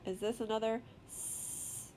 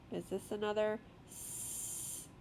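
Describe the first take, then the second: No difference in how they are said.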